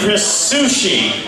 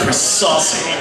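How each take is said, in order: First: The surname sounds like sushi. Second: The surname sounds like saucy. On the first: This is the most common mispronunciation of the name. "More people mispronounce my name Chris Sushi" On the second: This is a common mispronunciation of the name. "if you're going to have a name mispronounced"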